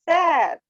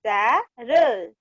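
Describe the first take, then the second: First: "सैर" as one higher, falling word; joined word. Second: "सै... र" slowly with a gap; split reading. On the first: Teacher leading the class along, "सैर" joined up. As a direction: blend "सैर" into one syllable. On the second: Teacher leading the class along, "सै - र" split. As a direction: sound out "सैर" in two drawn-out pieces. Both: Shown as a demonstration. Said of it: "मेरे साथ साथ आप फिर से बोलिए".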